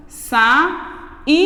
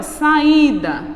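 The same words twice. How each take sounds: First: Saída split as sa-i-da; syllables split. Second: Said in the usual way. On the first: Shown as a demonstration. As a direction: break saída into sa-i-da. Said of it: "Mesma coisa aqui". (saída separada em sílabas)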